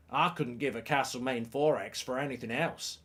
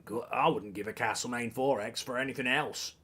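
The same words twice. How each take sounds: First: Attempted Australian accent, slightly off; bad Australian accent. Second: Low, badly faked Australian; terrible Australian accent. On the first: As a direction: have a poor go at Australian. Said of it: "I meant to be from Australia". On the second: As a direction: have another poor stab at Australian, softly. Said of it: "It's terrible". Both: Shown as a demonstration.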